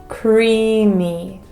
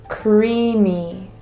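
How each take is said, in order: Both takes have the same delivery.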